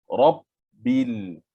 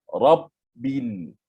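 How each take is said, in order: No difference in how they are said.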